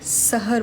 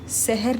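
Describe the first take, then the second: First: It is pronounced like the word for dryness. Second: It is pronounced like the word for morning. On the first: The word refers to dryness or desert. The speaker calls it right. "बोलते वक्त सहर बोलिए" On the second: The word refers to morning. The speaker calls it wrong. "सहर ना बोलिए"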